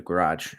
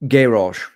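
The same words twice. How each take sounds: First: Said in the usual way. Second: Garage in a British accent, GA-rahzh with the stress up front, louder; a quick jokey British garage for overseas viewers. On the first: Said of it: "sorry, if for my friends overseas". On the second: Shown as a demonstration. For friends overseas, a loud mock British garage. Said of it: "my wife told me not to do the accents anymore".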